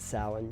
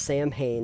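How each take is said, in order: First: It is pronounced differently from its spelling. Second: It is pronounced letter by letter, as spelled. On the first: The speaker calls it right. "it is Samhain" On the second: The speaker calls it wrong. "I pronounce things phonetically when I don't know how to pronounce it"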